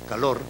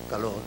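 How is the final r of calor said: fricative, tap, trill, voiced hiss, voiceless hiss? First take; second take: trill; fricative. First: The final r is a rolled trill. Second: The final r is a weak fricative sound. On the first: "ora como vibrante múltiple" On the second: "ora como fricativo más o menos debilitado"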